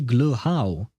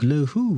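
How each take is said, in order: First: The second part sounds like the word 'how'. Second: The second part sounds like the word 'who'. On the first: The speaker calls it right. "So it's actually glow how" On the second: The speaker calls it wrong. "the first time around you wrote it glow who"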